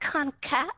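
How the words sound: It is said the American way, with a puff of air.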